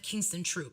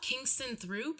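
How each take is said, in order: First: The last word begins with a plain 't' sound. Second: The last word begins with a 'th' sound. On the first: The speaker calls it right. "I think is said Kingston Troop" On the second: The speaker calls it wrong. "it says Throop"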